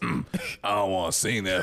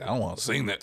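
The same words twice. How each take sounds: First: It is said in a put-on imitated voice. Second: It is said in the speaker's ordinary voice.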